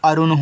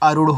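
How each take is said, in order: First: The name ends in a dental n sound. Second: The name ends in a retroflex n sound. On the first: "यन से ना करोगे देखो अरुण हो जाएगा" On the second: "ना के स्थान पे अड़ा यूज करोगे तो ये देखो आपका अरुण हो जाएगा"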